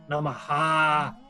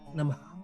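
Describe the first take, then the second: First: The final h is forced hard from the throat. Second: The final h is a soft breath echoing the vowel. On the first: The speaker calls it wrong. "Ele força, né?" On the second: The speaker calls it right. "é bem, bem suave. Ele não é uma aspiração, não é na garganta"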